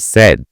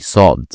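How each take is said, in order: First: The name sounds like the English word said. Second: The name sounds like the English word sod. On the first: The speaker calls it wrong. "don't say said" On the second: The speaker calls it right. "say Sod"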